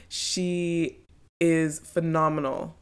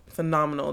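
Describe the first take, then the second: First: She is phenomenal, drawn out slowly with weight on phenomenal; slow down and lean on phenomenal like real praise; slow emphasis. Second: Said in the usual way. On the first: Real, not acted. Praising the guest to listeners, slow and emphatic.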